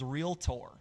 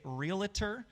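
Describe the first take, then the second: First: The ending sounds like 'Tory'. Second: The ending does not sound like 'Tory'. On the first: The speaker calls it right. "the way to actually pronounce it is realtor, like realtor, like Tory" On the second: The speaker calls it wrong. "a lot of people say realtor"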